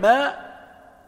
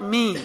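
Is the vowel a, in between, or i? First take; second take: a; i. First: The vowel is a clear open a. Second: The vowel is a clear i. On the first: "فالفتح ما" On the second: "والكسر مي"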